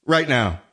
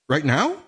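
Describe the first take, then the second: First: RIGHT NOW falling as a statement; "Right now." lower, ending downward; settled confirmation. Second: RIGHT NOW rising sharply as a question; "right now?" lifting at the end in surprise; incredulous question. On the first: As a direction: say "Right now." with pitch dropping on NOW. Answers own question, settling it. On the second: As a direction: ask "right now?" with pitch climbing on NOW. Surprised echo of partner's answer. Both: Acted.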